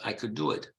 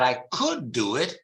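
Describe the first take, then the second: First: The word could is reduced and unstressed. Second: The word could is full and stressed. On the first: It is an ordinary statement. "Forma debole" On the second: The verb is contrasted with would. "if you want to emphasize the verb"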